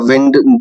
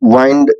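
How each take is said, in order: First: The vowel sounds like the vowel in 'it'. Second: The vowel sounds like the vowel in 'eye'. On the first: "कभी विंड कहते हैं" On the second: "कभी वाइंड कहते हैं"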